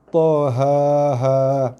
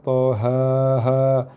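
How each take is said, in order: No difference in how they are said.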